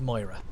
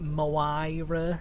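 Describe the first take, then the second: First: The name is pronounced plainly and normally. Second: The name is pronounced in a jokey, distorted way. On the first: The speaker calls it right. "her name's Moira" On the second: The speaker calls it wrong. "Or they do it as like a, a joke"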